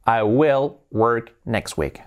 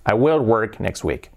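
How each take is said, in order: First: Slow, word by word; slow model sentence. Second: Said in the usual way. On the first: Shown as a demonstration. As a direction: space the words out for learners. Teacher models sentence slowly, then faster. (frase modelo, muy despacio)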